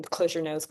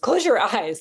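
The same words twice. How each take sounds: First: Said in the usual way. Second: Higher, louder, laughing at the slip; laughing correction. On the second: Real, not acted. Teacher correcting herself to the breathwork class, laughing. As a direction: fix the mistake with a laugh. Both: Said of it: "Don't close your nose".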